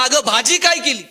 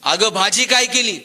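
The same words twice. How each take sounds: First: Louder retold yell, pitched up; shouted loudly. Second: A mild call from the doorway, only slightly louder. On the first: Husband yells at his wife from right behind her, loud shout. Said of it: "आणि जोरात ओरडला". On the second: Retold or imitated. Husband calls to his wife from the front door, mild call. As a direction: call out casually to his wife in the next room. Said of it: "यानं दारातूनच आवाज दिला".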